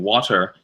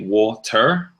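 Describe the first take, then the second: First: It is said in an American accent. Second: It starts Australian and ends American. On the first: "instead of saying water" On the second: "And I say water. So I use the end part of the American accent and then the beginning of Australia"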